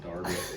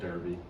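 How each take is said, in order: First: It is said the way British speakers say it. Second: It is said the way it is spelled. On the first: "but they pronounce it Derby" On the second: "it's spelled Derby"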